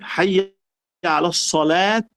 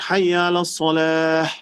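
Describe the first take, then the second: First: The last word ends with a t sound. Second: The last word ends with an h sound. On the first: The speaker calls it wrong. "no, no es correcto" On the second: The speaker calls it right. "pero debe pronunciar la J"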